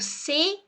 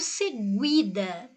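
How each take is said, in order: First: The u after the g is silent. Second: The u after the g is pronounced. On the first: The speaker calls it right. "eu falo seguida" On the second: The speaker calls it wrong. "eu não falo seguida"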